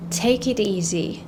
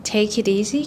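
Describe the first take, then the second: First: "Take it easy" said very slowly, word by word; slow careful take. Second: "take it easy" run together quickly; faster natural take. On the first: Teacher giving the slow form first. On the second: Teacher giving the fast everyday form. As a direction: say "take it easy" at speaking speed. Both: Shown as a demonstration.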